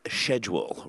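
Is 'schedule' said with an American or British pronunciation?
British. It is said with a British pronunciation. "when the British say schedule"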